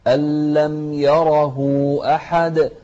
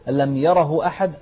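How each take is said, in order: First: "يره" بمد الهاء مدا مشبعا وببطء; أشبع الهاء في "يره" ببطء; إشباع الهاء. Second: "ألم يره أحد" بسرعة دون إشباع الهاء; اقرأها بسرعة كمثال للخطأ; قراءة سريعة خاطئة. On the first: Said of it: "لازم تشبع الهاء هني". (المعلم يعلم الإشباع ببطء) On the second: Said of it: "سريعة لا". (مثال خاطئ بسرعة) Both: Shown as a demonstration.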